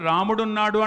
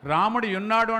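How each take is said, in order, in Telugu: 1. రెండు పదాలు కలిసిపోతాయి; చివరి అచ్చు పోతుంది. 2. రెండు పదాలు కలవకుండా విడిగా ఉంటాయి. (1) "నా ఇష్టం" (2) "నాకు ఇష్టం లేనప్పుడు"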